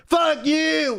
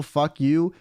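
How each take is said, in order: First: Sudden high-pitched mock scream; belted out. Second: Said in the usual way. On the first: Passenger randomly screaming mid-conversation, belted-out mock yell. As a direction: belt it out abruptly, imitating an aggressive yell. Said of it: "he randomly just belts out". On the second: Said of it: "like, a very casual".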